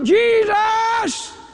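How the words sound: The word is shouted loudly.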